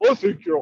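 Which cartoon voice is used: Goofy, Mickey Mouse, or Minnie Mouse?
Goofy. It is said in a dopey, drawling Goofy voice. "using the voice of Goofy"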